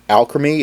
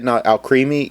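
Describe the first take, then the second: First: The name sounds just like the word alchemy. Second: The name does not sound like the word alchemy. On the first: The speaker calls it right. "it is Alchemy because it is. Um, it comes from alchemy" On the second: The speaker calls it wrong.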